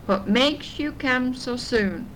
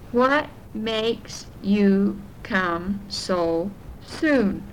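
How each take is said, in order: First: It is said at a faster pace. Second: It is said at a slower, normal pace.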